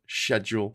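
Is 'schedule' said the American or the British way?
British. It is said in a British way. The speaker calls it right. "instead of schedule"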